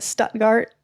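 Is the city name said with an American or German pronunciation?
American. It is said with an American-style pronunciation. "with my American accent"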